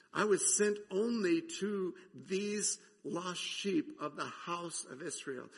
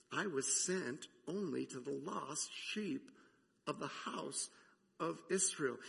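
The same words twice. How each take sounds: First: Preacher re-reading Jesus' words with weight on sent; emphatic quote. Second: Said in the usual way. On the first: Acted. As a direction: lean hard on sent, spelling it out.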